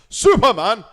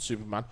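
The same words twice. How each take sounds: First: The word is said loudly and forcefully. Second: The word is said at normal volume. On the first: The speaker calls it right. "I should have to say it like that because it's all in capitals" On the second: The speaker calls it wrong.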